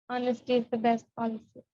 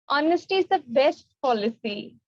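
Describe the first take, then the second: First: It is said in a sad tone. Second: It is said in a happy tone.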